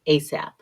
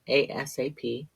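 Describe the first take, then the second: First: It is spoken as a single word. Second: It is spoken as four separate letters. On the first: "sometimes we say it as a word" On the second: "Sometimes we say it letter by letter"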